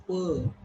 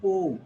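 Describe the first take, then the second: First: Po, said as puh with a neutral vowel; correct weak syllable. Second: Po, said as POH with a full O; wrong syllable. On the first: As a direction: say "po" as a plain puh. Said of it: "It's po". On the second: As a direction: hold up "po" with a round O. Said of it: "It is not po". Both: Shown as a demonstration.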